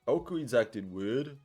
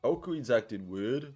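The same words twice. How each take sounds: First: It is said in a put-on character voice. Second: The same.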